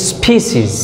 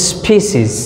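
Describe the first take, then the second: Both takes have the same delivery.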